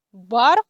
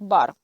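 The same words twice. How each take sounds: First: French "Бар", lifted as an example word; French pronunciation. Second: Said in the usual way. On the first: Shown as a demonstration. Teacher reads French example "Бар" before translating it, French pronunciation. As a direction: read "Бар" clearly as French. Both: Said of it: "перекладається як бар".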